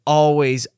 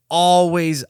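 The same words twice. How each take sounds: The two takes are said the same way.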